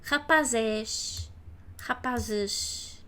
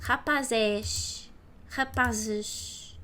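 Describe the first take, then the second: The two takes are said the same way.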